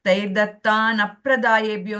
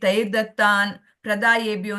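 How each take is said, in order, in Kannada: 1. 'pra' ಮೊದಲು 'a' ಸ್ವರ ಕೇಳಿಸುತ್ತದೆ. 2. 'pra' ಮೊದಲು 'a' ಸ್ವರ ಕೇಳಿಸುವುದಿಲ್ಲ. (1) "ಅಂತಾನೆ ಓದಿ" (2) "ಅಂತ ಓದಿದ್ರೆ ಅರ್ಥ ಬೇರೆ ಆಗ್ತದೆ"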